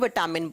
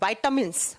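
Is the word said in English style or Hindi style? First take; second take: Hindi style; English style. First: It is said the everyday Hindi way. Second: It is said the English way, as doctors say it. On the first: "Hindi में तो विटामिन बोलते हैं" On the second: "doctor इसको कैसे pronounce करते हैं?"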